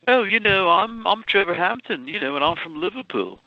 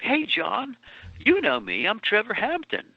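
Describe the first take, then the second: First: Higher, breezy fake Liverpool voice, quickening at the end; lightly imitated Liverpool accent; put-on Liverpool accent. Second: Raised, lightly Liverpool-flavoured greeting; a hint of Liverpool swagger. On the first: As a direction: sell yourself as a Liverpool lad. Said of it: "I used to speak that way". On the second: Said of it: "He says in the book".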